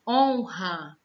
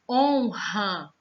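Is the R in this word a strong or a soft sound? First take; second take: strong; strong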